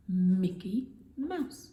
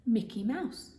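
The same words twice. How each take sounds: First: Mickey Mouse slow and loud, leaning on each M; stretched mm sounds. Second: Said in the usual way. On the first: Shown as a demonstration. Teacher stressing the M sounds for the class. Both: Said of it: "Both start with the mm sound".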